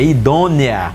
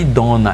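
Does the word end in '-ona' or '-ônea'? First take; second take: -ônea; -ona. First: The word ends in an '-ônea' sound. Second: The word ends in a plain '-ona' sound. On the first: The speaker calls it right. "é idônea" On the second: The speaker calls it wrong. "Não confunda idona, não é idona"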